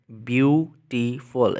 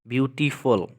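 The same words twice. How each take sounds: First: beautiful drawn out slowly, each syllable separate; slow syllable count. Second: Said in the usual way. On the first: Shown as a demonstration. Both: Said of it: "इसमें three syllables हैं".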